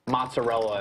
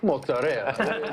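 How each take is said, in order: First: It is said with a plain American accent. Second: It is said with an exaggerated Italian accent. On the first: "when someone's like" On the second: "the Italian dude's like"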